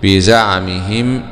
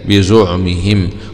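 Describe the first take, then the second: First: The z is followed by an a vowel. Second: The z is followed by a u vowel.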